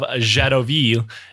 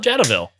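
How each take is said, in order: First: The name is said with a French pronunciation. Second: The name is said with an American pronunciation. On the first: "I'm not going to pronounce it like that the whole episode" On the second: "I'm going to play the card of American here"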